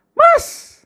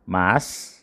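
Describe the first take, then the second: First: Mas squeaked very high; wife's high surprised mas; different intonation. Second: Said in the usual way. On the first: Shown as a demonstration. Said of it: "Kan beda lagi". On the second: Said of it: "Ini biasa".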